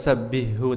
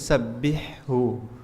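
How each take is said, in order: First: The h sound is weak and unclear. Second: The h sound is clear and distinct. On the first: The speaker calls it wrong. "bukan sabbihu" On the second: The speaker calls it right. "tapi sabbihhu"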